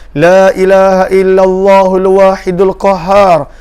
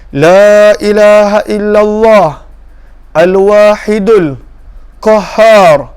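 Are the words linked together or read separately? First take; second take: linked; separate. First: The words are linked smoothly into one flow. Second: The words are read separately, with breaks between.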